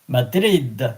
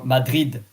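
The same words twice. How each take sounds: First: It is pronounced without a French accent. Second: It is pronounced with a French accent.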